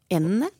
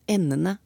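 First: It has the word melody of 'the ducks'. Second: It has the word melody of 'the ends'. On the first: The word refers to the birds. "Og da kan vi begynne med fuglen" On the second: The word refers to the ends of a rope. "Og så kan vi bruke tauet som vi har, og snakke om endene"

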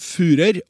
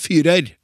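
First: The vowel sounds like Norwegian u in hus. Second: The vowel sounds like Norwegian y. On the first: The speaker calls it right. "som uttales som Führer" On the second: The speaker calls it wrong. "og ikke Führer"

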